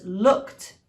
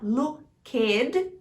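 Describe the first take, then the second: First: The -ed ending is only a final consonant sound. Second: The -ed ending is said as a separate syllable. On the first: The speaker calls it right. "você pula o E e fala o som final" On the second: The speaker calls it wrong. "não é para falar looked"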